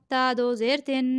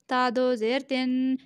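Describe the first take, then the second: No difference in how they are said.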